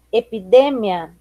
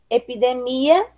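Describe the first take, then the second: First: "epidemia" stressed on DE, falling; Spanish stress. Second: Said in the usual way. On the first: Shown as a demonstration. Teacher reading the list, "epidemia" with Spanish stress on DE. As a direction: say "epidemia" as e-pi-DE-mia. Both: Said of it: "diferença entre as palavras heterotônicas".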